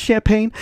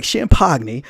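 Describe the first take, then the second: First: Said in the usual way. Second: "champagne" said as sham-POG-nee; mock mispronunciation. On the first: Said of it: "I think it's champagne". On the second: Shown as a demonstration. Correcting himself jokingly, "champagne" said sham-pog-nee. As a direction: sound out the silent g in "champagne", ending in -nee. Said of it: "but it's like champagne".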